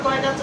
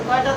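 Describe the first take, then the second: Both takes have the same delivery.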